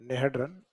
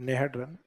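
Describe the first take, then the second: The two takes are said the same way.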